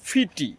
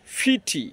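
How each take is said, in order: First: It has a crisp British t sound. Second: The same.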